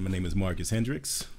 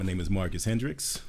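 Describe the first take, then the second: First: The voice is deep and formal. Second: The voice is deep and formal.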